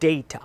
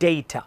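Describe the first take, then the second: First: The first vowel is an 'ay' sound. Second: The same.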